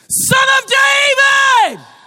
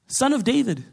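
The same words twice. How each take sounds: First: It is screamed very loudly. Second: It is said quietly and calmly.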